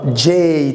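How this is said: The letter name sounds English, like jay. "Mais en anglais"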